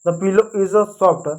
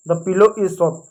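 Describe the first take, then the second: First: Very slow, every word separated; slow model sentence. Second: Said in the usual way. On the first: Shown as a demonstration. Teacher modelling the sentence for students, very slow. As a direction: dictate it slowly. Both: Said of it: "तकिया की अंग्रेजी होती है pillow".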